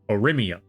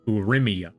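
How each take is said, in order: First: The first vowel is not an oo sound. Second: The first vowel is an oo sound. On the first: The speaker calls it wrong. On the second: The speaker calls it right.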